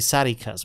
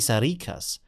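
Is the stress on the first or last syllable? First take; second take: first; last. First: The stress is on the first syllable. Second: The stress is on the last syllable. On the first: This is how the speaker says it in German. "I say Sarikas with the pronunciation at the start" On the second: This is how people in Greece or Turkey say it. "they say Sarikas with the with the pronunciation on the end"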